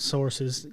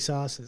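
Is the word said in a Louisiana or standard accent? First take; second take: standard; Louisiana. First: It is said in a plain standard accent. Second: It is said in a Louisiana accent, like sauces. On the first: "s- sources" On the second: "You got to say sauces"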